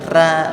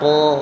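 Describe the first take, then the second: First: The r is thin, with an open vowel. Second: The r is thick, with a rounded vowel. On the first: The speaker calls it wrong. "bukan ra" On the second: The speaker calls it right. "Ra yang fathah, ro"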